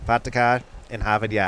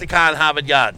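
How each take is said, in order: First: Put-on copied Boston accent. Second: Dropped-r Boston accent. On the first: Host echoing co-host's demo, imitated Boston accent. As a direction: try Boston with dropped r's. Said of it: "everybody has a Boston ac". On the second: Shown as a demonstration. Co-host showing the others how, broad Boston accent. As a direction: demonstrate broad Boston, no r's. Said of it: "Like this, ready?".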